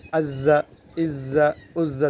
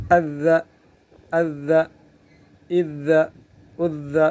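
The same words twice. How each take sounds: First: عز with a hissing z, slowed; سیٹی والا غلط تلفظ; wrong whistled z. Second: بغیر سیٹی کے; correct doubled dhal. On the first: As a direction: drag the z in عز so it whistles, as the mistake. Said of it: "سیٹی کی آواز آ رہی ہے". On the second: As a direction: press the doubled ذ in عز without any hiss. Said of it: "سیٹی کی آواز بالکل نہیں آ رہی". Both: Shown as a demonstration.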